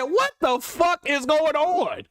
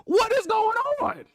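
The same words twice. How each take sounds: First: Slow, stunned what-the-fuck; slow disbelieving outburst; retold disbelief. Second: High, incredulous repeat; incredulous squeak of disbelief; higher disbelief. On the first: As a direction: drag it out in disbelief. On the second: Retold or imitated. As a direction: pitch it up, stunned. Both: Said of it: "I said".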